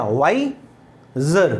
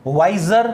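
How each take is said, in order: First: "वाइजर" slowly split as "वाइ", pause, "जर"; broken into syllables. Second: Said in the usual way. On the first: Shown as a demonstration. Teacher shows the two syllables of "वाइजर", slowly, with a gap between. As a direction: pull "वाइजर" apart into two slow syllables. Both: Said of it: "इसमें दो हो गया".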